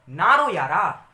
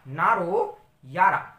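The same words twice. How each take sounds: First: Comforting call. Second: Drawn-out comforting. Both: Pretend. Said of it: "तो आपने कहा".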